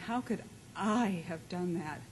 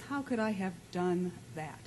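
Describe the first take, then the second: First: The stress is on the word I. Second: The stress is on the word that.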